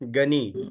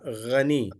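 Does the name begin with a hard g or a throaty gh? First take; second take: hard g; throaty gh. First: The name begins with a plain hard g sound. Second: The name begins with a rough throaty gh sound. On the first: The speaker calls it wrong. "Gani is not the correct one" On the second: The speaker calls it right. "Ghani is the correct name"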